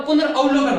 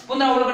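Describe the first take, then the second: First: पुनर्अवलोकन said correctly as punar-avalokan, with a short a; correct pronunciation. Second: पुनरावलोकन said wrongly as punaraa-valokan, with a long aa; wrong pronunciation. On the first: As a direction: pronounce पुनर्अवलोकन carefully and correctly. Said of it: "पुनर्अवलोकन होता है". (सही उच्चारण पुनर्अवलोकन, छोटे अ के साथ) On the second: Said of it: "पुनरावलोकन नहीं होता". (गलत उच्चारण पुनरावलोकन) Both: Shown as a demonstration.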